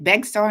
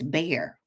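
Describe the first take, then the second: First: The name is said with a ks sound. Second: The name is said like bear, no ks. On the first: The speaker calls it wrong. "Because I was like Bexar" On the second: The speaker calls it right. "it's Bear with the X is silent"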